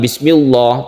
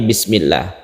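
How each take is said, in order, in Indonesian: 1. Bunyi L dilafalkan tebal dan berat. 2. Bunyi L dilafalkan tipis dan ringan. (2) "ditipiskan atau tarqiq"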